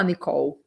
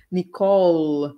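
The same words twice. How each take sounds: First: Nicole ending "oh-oo", tongue down. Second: Nicole slowly, with a long dark L; curled English L. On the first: Teacher shows what to avoid, Nicole ending in U. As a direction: say Nicole as ni-KOW, without the L. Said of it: "Você não vai falar Nicole". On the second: Teacher shows the L to students, drawn-out Nicole. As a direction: hold the final L of Nicole. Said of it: "o L é enrolada". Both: Shown as a demonstration.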